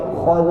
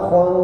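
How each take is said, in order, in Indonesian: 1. Bunyi kh dan vokalnya penuh. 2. Bunyi kh dan vokalnya lemah. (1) "tapi khon" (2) "jangan khon"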